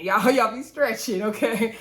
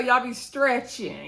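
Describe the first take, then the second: First: Laughing as she repeats it; laughing tease. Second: Drawn out, teasing; slow teasing. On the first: Vlogger repeating the tease to cast members, laughing. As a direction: chuckle through the tease. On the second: Vlogger teasing cast members for exaggerating, slow and drawn out. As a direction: stretch it slowly like a tease. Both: Real, not acted.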